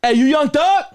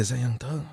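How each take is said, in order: First: Much higher, loud call; excited shout. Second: Said in the usual way. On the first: Retold or imitated. Fan shouting at [name] in Walmart, high and loud. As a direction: call out across the store, thrilled. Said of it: "That's how I said it". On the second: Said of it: "Then I said".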